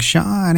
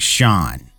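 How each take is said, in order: First: The name is said warmly and fondly. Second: The name is said coldly with irritation. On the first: The speaker is newly smitten with him. "like when you first met him" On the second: The speaker has grown annoyed with him. "hear the disdain in your voice when you say my name"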